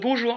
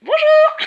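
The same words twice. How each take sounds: First: It is said in a gloomy, flat way. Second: It is said in a cheerful, smiling way.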